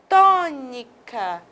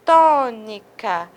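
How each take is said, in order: First: Tônica said slowly, the first syllable tô stressed; slow stress demo. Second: Tônica repeated slowly, tô leaned on; slow stress demo. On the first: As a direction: stretch out tônica, hitting the tô. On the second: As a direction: say tônica once more, slow and firm. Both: Shown as a demonstration. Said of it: "Mais uma vez".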